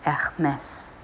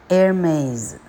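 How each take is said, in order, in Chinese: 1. 这个名字是用法国口音说的。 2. 这个名字是用美国口音说的。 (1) "法文Hermes" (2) "美语Hermes"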